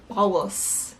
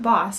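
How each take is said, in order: First: The word has an altered, stylized pronunciation. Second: The word has its ordinary everyday pronunciation. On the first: The speaker calls it right. "it's like boss" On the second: The speaker calls it wrong. "It's not boss"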